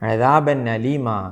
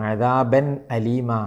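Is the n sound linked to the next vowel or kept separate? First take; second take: linked; separate. First: The n runs straight into the following a. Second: The n is clear and the a starts separately. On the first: The speaker calls it wrong. "ഇങ്ങനെയല്ലാതെ" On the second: The speaker calls it right. "ഇവിടെ അങ്ങനെ തന്നെ ഓതണം"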